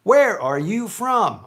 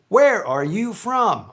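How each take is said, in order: First: Every word is pronounced fully and separately. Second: Every word is pronounced fully and separately.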